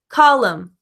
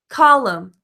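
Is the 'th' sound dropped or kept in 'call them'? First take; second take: dropped; dropped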